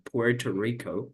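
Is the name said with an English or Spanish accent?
English. It is said with English sounds and stress. The speaker calls it right. "dicen Puerto Rico, so you need to make the accent"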